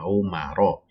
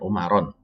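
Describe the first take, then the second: First: The word ends on a vowel without n. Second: The word ends with an added n sound. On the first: The speaker calls it right. "dia menjadi Umaro" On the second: The speaker calls it wrong. "bukan bukan Umaron"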